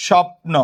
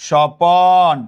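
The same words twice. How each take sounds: First: স্বপ্ন as "shop-no", p and n together; no vowel between p and n in স্বপ্ন; cluster in স্বপ্ন. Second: স্বপন as "sho-pon", long second syllable; inserted vowel in স্বপন. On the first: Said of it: "আমরা যদি এরকম বলি". ("স্বপ্ন"-এ প আর ন যুক্ত উচ্চারণ) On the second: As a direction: stretch an o between p and n in স্বপন. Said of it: "স্বপ্ন থেকে বললাম". ("স্বপন"-এ প-এর পরে টানা অ) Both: Shown as a demonstration.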